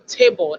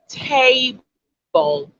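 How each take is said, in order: First: The first vowel is kept short. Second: The first vowel is drawn out long. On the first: This is how the speaker's own community says it. "as against the table that we say" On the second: This is how an English speaker says it. "So the pronunciation you'd have would sound like table"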